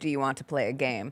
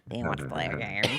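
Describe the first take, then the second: First: It is said in his normal voice. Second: It is said in an imitation of Jigsaw.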